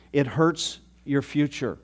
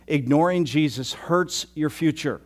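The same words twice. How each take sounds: First: "It hurts your future" repeated slowly, every word weighted; slow down and drive "It hurts your future" home; emphatic repeat. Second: Said in the usual way. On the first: Shown as a demonstration. Pastor warning listeners, slow emphatic "It hurts your future".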